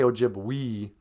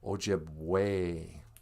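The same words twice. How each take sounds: First: The final vowel sounds like 'ee'. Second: The final vowel sounds like 'ay'. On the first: The speaker calls it wrong. "We don't say Ojibwe" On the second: The speaker calls it right. "E's are a sounding, like in the word Ojibwe"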